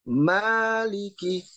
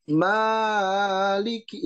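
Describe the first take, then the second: First: The first vowel is short, one beat. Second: The first vowel is stretched too long. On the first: The speaker calls it right. "Jadi maliki" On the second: The speaker calls it wrong. "tidak maliki, itu kepanjangan"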